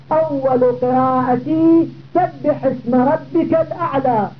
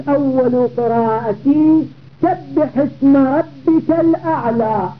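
Both takes have the same delivery.

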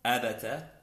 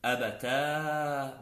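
First: "أبتا" with short final a; "أبتا" cut short on the fatha. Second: "أبتا" held on a long aa; "أبتا" opened out into a long alif. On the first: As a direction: keep "أبتا" brief: a-ba-ta. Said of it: "بالتاء المفتوحة". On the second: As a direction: stretch the end of "أبتا": a-ba-taaa. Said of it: "مع الألف". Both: Shown as a demonstration.

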